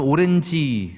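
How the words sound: It is said as Korean-style syllables, o-ren-ji. The speaker calls it wrong. "미국 가서 오렌지 그러면 잘 못 알아듣어요"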